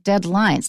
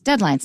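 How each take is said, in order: First: The stress falls on the second part, lines. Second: The stress falls on the first part, dead. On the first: Lines that are dead. The speaker calls it wrong. "not deadlines. 那是死掉的几条线" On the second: A time limit for finishing work. The speaker calls it right. "Listen to the stress. It's deadlines"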